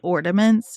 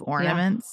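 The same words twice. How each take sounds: First: The word is said with an added d sound. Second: The word is said without any added d sound. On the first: A small child said it this way. The speaker calls it wrong. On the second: This is the standard form. The speaker calls it right.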